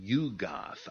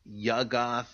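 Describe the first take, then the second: First: The first syllable does not rhyme with tug. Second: The first syllable rhymes with tug.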